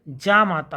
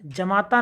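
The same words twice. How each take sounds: First: जामाता begun with a long "jaa"; correct long first vowel. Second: जमाता begun with short "ja"; wrong short first vowel. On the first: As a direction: stretch the opening of जामाता. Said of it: "होता". (जामाता में लंबा जा) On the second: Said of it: "जमाता नहीं". (जमाता में छोटा ज) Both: Shown as a demonstration.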